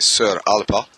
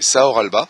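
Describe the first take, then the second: First: The name has a Gaelic pronunciation, like Sir Alpa. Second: The name is read as it is spelled. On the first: The speaker calls it right. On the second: The speaker calls it wrong.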